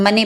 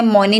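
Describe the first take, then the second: First: "मनी" said with a short a sound; correct pronunciation. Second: "मोनी" said with an o sound; wrong pronunciation. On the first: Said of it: "इसे हम मनी पढ़ रहे हैं". (सही उच्चारण "मनी", छोटे अ के साथ) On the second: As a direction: mispronounce it as "मोनी" with a round o. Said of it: "इसे मोनी नहीं पढ़ रहे". (गलत उच्चारण "मोनी", ओ की आवाज़ के साथ) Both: Shown as a demonstration.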